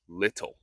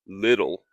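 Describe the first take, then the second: First: The T is clearly pronounced. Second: The T is soft and flapped. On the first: "not little"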